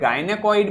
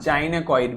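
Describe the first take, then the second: First: The word begins with a hard g sound. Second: The word begins with a j sound. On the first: "इसे गायनेकॉइड भी बोल सकते हैं" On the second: "जाइनेकॉइड भी बोल सकते हैं"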